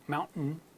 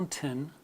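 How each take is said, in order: First: The middle t becomes a glottal stop. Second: The middle t is clearly pronounced.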